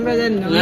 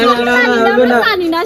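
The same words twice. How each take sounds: First: Said in the usual way. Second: Louder, very slow and stretched out; hammed-up loud mocking chant; mock sing-song shout. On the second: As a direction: drag out the taunt loudly. Bystanders refuse to help.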